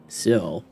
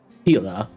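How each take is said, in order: First: The name is said as one short syllable. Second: The name is said with two syllables. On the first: This is how the written name looks. "when you read that name, it sounds like it should be saying Seal" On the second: This is how the name is actually pronounced. "I don't think I've ever heard it pronounced like that"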